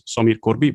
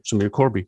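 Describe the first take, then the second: First: The name is said with a Dutch pronunciation. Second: The name is said with an English pronunciation. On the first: This is how the name is said at home. "since I'm Dutch, I would pronounce it as" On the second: This is how the name is said among English speakers. "conversation in English, I tend to say"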